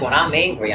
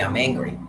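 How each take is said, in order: First: "I'm" pushed louder and falling; stress on I'M. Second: Said in the usual way. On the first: Shown as a demonstration. Ranting to the audience, loud stress on "I'm". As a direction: lean hard on "I'm", then let it drop.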